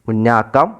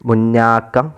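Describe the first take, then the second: The two takes are said the same way.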